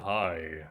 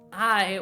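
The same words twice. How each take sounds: First: It is said in a lowered, deep voice. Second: It is said in a raised, high voice.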